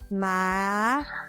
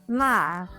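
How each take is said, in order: First: The pitch rises from middle to high. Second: The pitch falls sharply from high to low.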